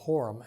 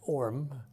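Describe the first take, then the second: First: The name starts with an H sound. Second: The name starts without an H sound.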